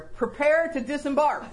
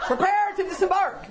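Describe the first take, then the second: First: Mock captain's order, laughing a little; a playful command to a friend. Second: Higher mock captain's order; mock command. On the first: Telling her friend in the car, a mock order. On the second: Repeating the catchphrase to her friend, hammed-up order. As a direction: announce it like a ship's officer, laughing. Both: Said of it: "That's my phrase".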